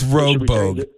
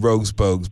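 First: The first word ends without an s sound. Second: The first word ends with an s sound. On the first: The speaker calls it right. "It's Rogue Bogues" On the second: The speaker calls it wrong. "it just sounds good"

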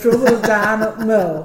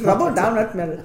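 First: It is said in a put-on northern English accent. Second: It is said in an Indian accent.

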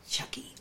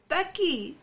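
First: The word begins with a ch sound. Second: The word begins with a th sound. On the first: The speaker calls it right. "I couldn't say Chucky" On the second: The speaker calls it wrong. "I said Thucky"

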